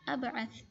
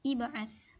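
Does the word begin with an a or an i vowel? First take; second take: a; i. First: The word begins with an a vowel. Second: The word begins with an i vowel. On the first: The speaker calls it wrong. "bukan dibaca" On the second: The speaker calls it right. "maka dibaca kasrah"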